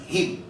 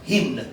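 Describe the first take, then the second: First: The final n is silent. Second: The final n is pronounced. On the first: The speaker calls it right. "on va dire him et non hymne" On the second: The speaker calls it wrong. "le N ne se prononce carrément pas"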